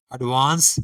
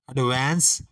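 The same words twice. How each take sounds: First: Advance with a broad "aa"; British advance. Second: Advance with a flat "ae"; flat American vowel in advance. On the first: Teacher listing the British form of advance, broad "aa". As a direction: open British vowel in advance. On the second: Teacher listing the American form of advance, flat "ae". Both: Shown as a demonstration. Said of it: "इसी तरह".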